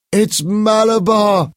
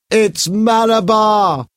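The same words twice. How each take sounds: First: High, slow, ringing shout; powerful strange shout. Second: High, slow, loud cry; powerful strange shout. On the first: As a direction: cry out as if possessed. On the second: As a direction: call it out in a trance. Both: A narrator's reading. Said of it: "Paul shouted in a powerful, strange voice".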